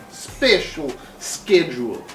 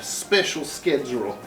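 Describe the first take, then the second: First: "Special schedule" said again slowly, with schedule as sked-jool; careful repeat. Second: Said in the usual way. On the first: Shown as a demonstration. Plant owner repeats "schedule" to fix how it is said, slowly.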